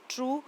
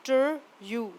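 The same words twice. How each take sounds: First: Said in the usual way. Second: ट्रू split into टर and यू; teacher sounding out टर, यू separately; sounded out. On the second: Shown as a demonstration. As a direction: say टर, pause, then long यू. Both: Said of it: "उनकी long sound आती है".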